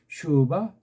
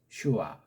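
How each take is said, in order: First: The middle consonant is a v sound. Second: The middle consonant is a w sound. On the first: This is the German way of saying it. The speaker calls it right. "독일은 슈바라고 제대로 읽는데" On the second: This is the English way of saying it. The speaker calls it wrong. "영국 아이들이 ... 이걸 슈와라고 한 거예요"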